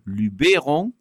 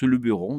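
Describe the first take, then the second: First: The first e is said as a clear 'é'. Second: The first e is said as a soft 'e'. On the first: It follows the Provençal pronunciation. "j'ai tendance à dire Luberon, d'autant qu'en provençal, le E se prononce E" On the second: It follows the locals' pronunciation. "les autochtones prononcent Luberon"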